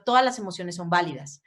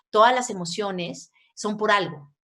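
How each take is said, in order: First: Said in the usual way. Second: "Todas" stressed, the line said slowly; slow and deliberate, with weight on "Todas"; slow emphatic stress. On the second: Shown as a demonstration. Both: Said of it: "repeated as emphasis".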